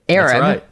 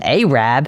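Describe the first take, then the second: First: It is pronounced the usual way. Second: It is pronounced the local Alabama way.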